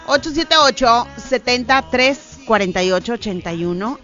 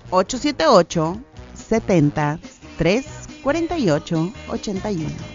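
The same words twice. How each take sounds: First: The number is read quickly. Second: The number is read slowly.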